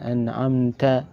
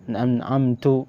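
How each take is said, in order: First: The word ends with an 'a' vowel. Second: The word ends with a 'u' vowel. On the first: The meaning is kept intact. The speaker calls it right. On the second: The meaning is changed. The speaker calls it wrong.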